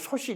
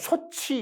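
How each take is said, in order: First: The consonant before the final vowel sounds like s. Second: The consonant before the final vowel sounds like ch. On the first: This is how the Jeolla dialect says it. "솥이 이렇게 발음하는" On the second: This is how the dialect does not say it. "솥이 이렇게 발음하지 않고"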